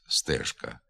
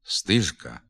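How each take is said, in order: First: The stressed vowel is a clear 'e'. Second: The stressed vowel sounds close to 'i'. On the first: The speaker calls it right. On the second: The speaker calls it wrong.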